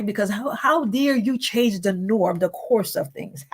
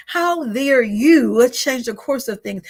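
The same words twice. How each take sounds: First: Said in the usual way. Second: Louder, slower, drawn-out indignation; indignant how dare you. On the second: Retold or imitated. Preacher voicing the enemy, loud and slow indignation.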